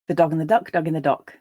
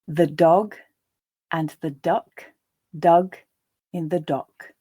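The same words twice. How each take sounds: First: The sentence is read at a natural pace. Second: The sentence is read slowly. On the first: "the second and third times at a more natural pace" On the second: "I'll read the first time more slowly"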